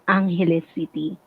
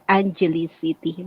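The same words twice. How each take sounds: First: Angeles is said with a Spanish-style pronunciation. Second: Angeles is said with an English-style pronunciation. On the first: This is how locals say it. "for us as a Filipino, we call it" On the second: This is how foreigners say it. "expat call it"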